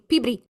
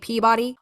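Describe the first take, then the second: First: It is said with a local Boston pronunciation. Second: It is said with a general American pronunciation.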